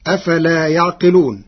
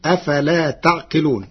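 First: يعقلون as "yaʿqilūn"; initial yā. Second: تعقلون as "taʿqilūn"; tā of address. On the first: Teacher quotes the verse before Warsh's reading, يعقلون with initial y. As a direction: recite يعقلون starting with a y. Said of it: "كلمة يعقلون بتاء الخطاب". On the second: Teacher shows Warsh's resulting reading, تعقلون with initial t. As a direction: recite تعقلون starting with a t. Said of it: "بتاء الخطاب". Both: Shown as a demonstration.

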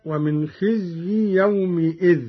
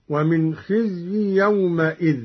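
First: يومئذ said "yawmi-idh"; short i after the m of يومئذ; kasra on mim. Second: يومئذ said "yawma-idh"; short a after the m of يومئذ; fatha on mim. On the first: Teacher quoting the verse first, kasra in يومئذ. Verse before Qalun's reading is shown. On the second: Teacher showing Qalun's reading, fatha on the mim of يومئذ. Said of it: "بفتح الميم من يومئذ". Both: Shown as a demonstration.

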